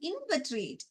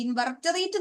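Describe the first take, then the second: First: ഇൻവെർട്ടറേറ്റ് said as in-vet-ret, short and compact; ഇൻവെർട്ടറേറ്റ് with a clipped middle, "invetret"; correct pronunciation. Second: ഇൻവെർട്ടറേറ്റ് said as in-var-ta-rate, every syllable spelt out; ഇൻവെർട്ടറേറ്റ് stretched into "invartarete"; wrong pronunciation. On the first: Teacher showing students the right way: ഇൻവെർട്ടറേറ്റ് as "invetret". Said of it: "pronounce ചെയ്യുന്നത് ശ്രദ്ധിച്ചോ". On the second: Teacher mimicking the students' mistake: ഇൻവെർട്ടറേറ്റ് as "invartarete". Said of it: "എന്ന് പറഞ്ഞില്ല". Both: Shown as a demonstration.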